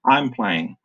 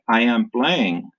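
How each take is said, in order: First: I am is shortened into one quick syllable. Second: I am is said as two full words. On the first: "they say I'm playing" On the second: "instead of saying I am playing"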